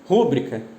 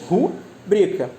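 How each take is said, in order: First: The stress falls on the first syllable. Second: The stress falls on the second syllable. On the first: The speaker calls it wrong. "O famoso rúbrica. Por que está incorreto? Rúbrica não é um substantivo proparoxítono" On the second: The speaker calls it right. "O certo é rubrica"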